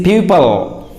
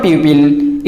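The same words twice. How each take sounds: First: PUPIL ending in a weak "pul"; correct pronunciation. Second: PUPIL with a clear "pil" ending; mispronunciation. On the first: Teacher corrects learners, pupil pronounced "PYOO-pul". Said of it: "it is pupil". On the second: Teacher warns learners off pupil mispronounced as "PYOO-pil". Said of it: "It is not pupil". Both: Shown as a demonstration.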